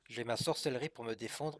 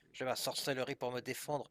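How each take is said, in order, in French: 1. C'est dit avec un accent français ordinaire. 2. C'est dit avec un faux accent allemand.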